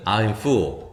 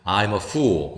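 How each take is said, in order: First: 'I'm full' slowly, full with an 으-like vowel; slow model of 'I'm full', lips unrounded; relaxed vowel. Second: 'I'm a fool' slowly, fool with a long 우; slow model of 'I'm a fool', lips rounded. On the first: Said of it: "으로 발음합니다". ('I'm full'을 천천히, full은 으에 가깝게) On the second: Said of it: "이렇게 우로 발음한다는 거". ('I'm a fool'을 천천히, fool은 동그란 우로) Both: Shown as a demonstration.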